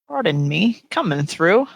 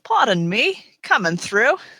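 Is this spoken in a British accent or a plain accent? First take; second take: plain; British. First: It is read in the speaker's ordinary accent. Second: It is read in a put-on British accent.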